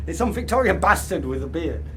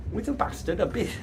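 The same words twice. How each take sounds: First: Rushed, amused retake; quick laughing correction. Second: Trailing off mid-slip; a quiet stumble over the word; fumbled self-correction. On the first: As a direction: fix the line fast with a chuckle. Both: Real, not acted.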